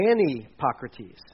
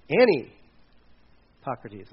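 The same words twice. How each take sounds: First: Anipocrates said slowly, syllable by syllable: a-ni-POC-ra-tes; careful pronunciation. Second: Anipocrates stretched very slowly and louder, every syllable held: a-ni-POC-ra-tes; drawn-out pronunciation. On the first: Pastor teaching the congregation a Greek word, careful pronunciation. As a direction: spell out anipocrates with care, a bit louder. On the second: Pastor repeating the Greek word for the congregation, very slow and deliberate. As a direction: draw out Anipocrates so everyone catches it. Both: Shown as a demonstration. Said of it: "and I spell it the right way".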